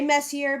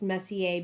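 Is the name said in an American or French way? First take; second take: American; French. First: The name is said in an American way. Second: The name is said in a French way. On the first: This is how the speaker habitually says the name. "But I say Messier because I am an American" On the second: This is the original pronunciation of the name. "I know it's pronounced Messier because the guy, uh, Charles Messier, he was French"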